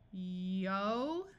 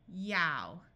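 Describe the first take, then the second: First: The vowel is a long 'oh' sound. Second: The vowel is an 'ow' sound as in down. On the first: "the O sound of slow" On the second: "ow sound of ow"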